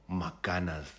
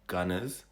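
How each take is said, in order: First: The word is said in a Shona accent. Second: The word is said in an English accent.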